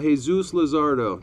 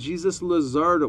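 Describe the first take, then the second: First: Jesus begins with a Spanish H sound. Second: Jesus begins with an English J sound. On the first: The speaker calls it right. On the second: The speaker calls it wrong. "I pronounce that wrong all the time"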